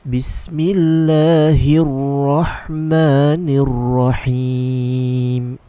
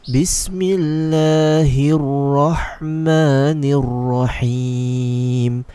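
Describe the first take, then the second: No difference in how they are said.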